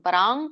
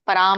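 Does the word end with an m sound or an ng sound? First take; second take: ng; m. First: The word ends with an ng sound. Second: The word ends with an m sound. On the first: "ಕ ವರ್ಗ ಇರೋದ್ರಿಂದ ಇಲ್ಲಿ ಪರಾಂಗ್ ಪರಾಂಗ್ ಕೃತ್ವಾ ಅಂತ ಬರುತ್ತೆ" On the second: "ಸರಿಯಾಗಿ ಪರಾಂ ಹೇಳಿದ್ರು ತಪ್ಪಿಲ್ಲ"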